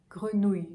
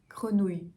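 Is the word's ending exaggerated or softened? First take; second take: softened; softened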